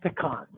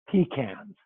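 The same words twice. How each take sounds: First: It is said in a general, non-East Coast way. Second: It is said the East Coast way.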